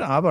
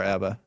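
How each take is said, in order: First: "abba" with first A as in father; broad A pronunciation. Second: "abba" with first A as in cat; "abba" rhyming its first syllable with cab; short A pronunciation. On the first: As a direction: say "abba" as AH-buh. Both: Shown as a demonstration. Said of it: "Is it abba or abba".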